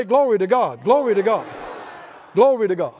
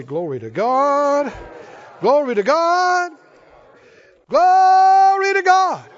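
First: Loud praise call. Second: Climbs from normal to very high, loud and slow; building praise shout. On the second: Preacher leading the church in praise, building to a roar. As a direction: swell each Glory to God into a roar. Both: Shown as a demonstration. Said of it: "Oh, somebody say".

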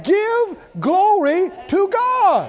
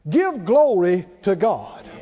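First: Drawn-out high, loud proclamation, very slow; preaching shout. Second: Said in the usual way. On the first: Shown as a demonstration. Preacher rallying the congregation, drawn-out shouting climax. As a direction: stretch every word and shout it up high.

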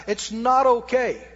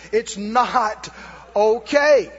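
First: Slow, firm, word by word; said real slow. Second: OKAY punched out loud and hard; loud rebuke. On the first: Preacher telling the congregation slowly and firmly. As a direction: drag out each word to make it sink in. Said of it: "I'm gonna say that real slow". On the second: Preacher rebuking the congregation, loud on okay. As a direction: hit "okay" hard to end the excuse. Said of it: "repeated rebuke". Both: Shown as a demonstration.

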